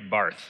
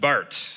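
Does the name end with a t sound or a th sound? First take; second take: th; t. First: The name ends with a th sound, as spelled. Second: The name ends with a plain t sound. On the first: The speaker calls it wrong. "Barth is how we might say that" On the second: The speaker calls it right. "but it's pronounced Barth"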